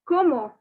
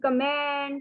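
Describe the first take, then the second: First: The word ends in a vowel sound. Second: The word ends in a consonant sound. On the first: The speaker calls it right. "No, it is como" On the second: The speaker calls it wrong. "don't make the mistake of saying comment"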